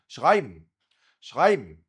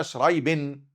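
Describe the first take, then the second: First: شرايبن with throaty r and the ending swallowed into m, louder; crisp model of شرايبن as "shghaibm"; German pronunciation. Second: شرايبن with tongue-tip r and a full "ben"; learner's mispronunciation. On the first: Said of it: "ده النطق الألماني". (نطق شرايبن ألماني بالغين وآخرها ميم) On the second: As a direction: copy a student's Arabic-sounding شرايبن. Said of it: "لكن أنت تقولها شرايبن". (نطق شرايبن زي الطالب براء عربية وآخرها بن) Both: Shown as a demonstration.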